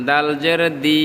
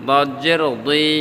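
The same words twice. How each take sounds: First: 'দি' with a thin, front d; light D. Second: 'দুই' with a thick d; heavy D. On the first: Teacher repeats the contrast, 'দি' with a light d. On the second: Teacher repeats the contrast, 'দুই' with a heavy d. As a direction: round and thicken 'দদ' and 'দুই'. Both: Shown as a demonstration. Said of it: "দুইটা আলাদা".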